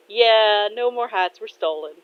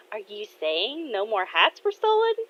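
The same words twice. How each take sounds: First: Amused confirmation. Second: Rising lilt through "no more hats were stolen"; questioning. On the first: Dad answering his daughter about the hats, amused. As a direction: confirm "no more hats were stolen" as a statement. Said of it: "Kotetsu laughs and says". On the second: Daughter asking dad about the hats, questioning. Acted question to her father. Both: Acted.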